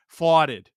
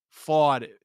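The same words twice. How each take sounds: The two takes are said the same way.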